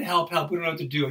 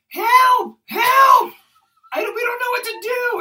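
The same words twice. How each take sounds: First: Said in the usual way. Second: Mock-panicked screams, very high and loud; panicked cry. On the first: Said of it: "I could have said". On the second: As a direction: shriek for help, imitating her panic. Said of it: "She opens the door in a panic".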